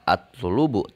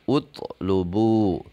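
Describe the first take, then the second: First: The word begins with an a vowel. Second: The word begins with an u vowel. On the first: The speaker calls it wrong. "tidak atlubu" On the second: The speaker calls it right. "dibaca utlubu"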